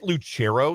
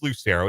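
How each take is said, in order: First: The name is said with an Italian-style C sound. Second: The name is said plainly, as it is spelled. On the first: The speaker calls it wrong. "I get like a hard C. People try to make it like really Italian" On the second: The speaker calls it right. "but it is Lucero. It's pretty straightforward"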